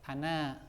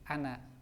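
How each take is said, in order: First: The final vowel is held long. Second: The final vowel is kept short. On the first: The word ends the phrase with a stop. "berhenti bisa dibaca dua harokat" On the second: The word runs on into the next word. "kalau dibaca nyambung dengan kalimat setelahnya bacanya pendek"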